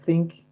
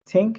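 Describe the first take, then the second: First: The first sound is a th. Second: The first sound is a plain t. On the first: The speaker calls it right. "sound out the th" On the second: The speaker calls it wrong. "use a t in place of the th"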